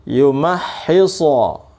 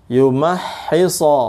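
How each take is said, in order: Both takes have the same delivery.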